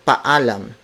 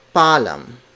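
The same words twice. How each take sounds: First: "paalam" with both a's said separately, pa-a-lam; "paalam" as three syllables, pa-a-lam; correct pronunciation. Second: "palam" with the a's merged into one, slowed to show the mistake; "palam" said slowly as the wrong, fused version; wrong pronunciation. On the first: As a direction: split the double vowel in "paalam" into two clear a's. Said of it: "Each vowel is pronounced separately". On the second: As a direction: say "palam" as two syllables, deliberately wrong. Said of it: "not palam". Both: Shown as a demonstration.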